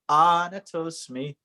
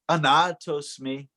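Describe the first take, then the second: First: The second syllable is not stressed. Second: The second syllable is strongly stressed. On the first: The speaker calls it right. "But we have to say" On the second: The speaker calls it wrong. "our words overemphasize the second syllable. And so we are accustomed, like to say"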